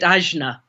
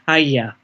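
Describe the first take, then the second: First: The middle is said with a 'jn' sound. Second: The middle is said with a 'gy' sound. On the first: This follows the Western written spelling. "people who haven't heard it being pronounced by Indians call it Ajna" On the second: This follows how it is said in northern India. "in India, uh, certainly in the in the northern Indian ashram I was in, it was pronounced Agya"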